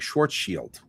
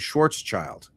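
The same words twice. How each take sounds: First: It is said with a German pronunciation. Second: It is read the English way, as spelled. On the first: The speaker calls it right. "he pronounces it in German, which ends up sounding more like Schwarzschild" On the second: The speaker calls it wrong. "I've always said things like Schwarzschild radius... That's the way it looks"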